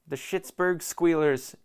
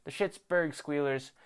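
First: Mocking. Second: Said in the usual way. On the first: Real, not acted. Mocking rival team name, drawn out.

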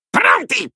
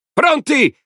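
First: Very high shout of an excited imp; shouted cry. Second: Very high, loud gleeful yell; a mob of maniacs yelling together; shouted chorus cry. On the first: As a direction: yell it out, eager for the hunt. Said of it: "urlò Folletta". (grido acutissimo) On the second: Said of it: "urlarono gli altri". (urlo acuto e forte) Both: A narrator's reading.

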